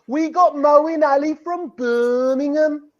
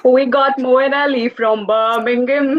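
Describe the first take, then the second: First: Slow, higher mock Brummie model; Birmingham accent. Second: Slow, careful copy of Brummie; attempted Birmingham accent. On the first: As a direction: draw it out in an exaggerated Birmingham accent. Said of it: "help me out here with a little bit of". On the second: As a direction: imitate a Birmingham accent, drawing it out. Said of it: "we'll have your Birmingham accents down". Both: Shown as a demonstration.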